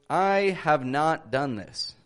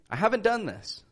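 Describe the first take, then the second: First: 'Have not' is said as two full words. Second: 'Have not' is shortened to 'haven't'. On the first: The speaker calls it wrong. "I would never say" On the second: The speaker calls it right. "I'd rather say"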